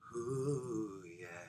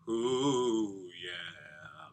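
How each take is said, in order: First: It is said with a breathy, airy voice. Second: It is said with a fuller, weightier voice.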